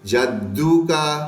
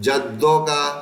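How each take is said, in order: First: The vowel after the double d sounds like u. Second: The vowel after the double d sounds like o. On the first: The speaker calls it right. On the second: The speaker calls it wrong.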